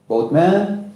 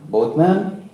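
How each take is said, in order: Both takes have the same delivery.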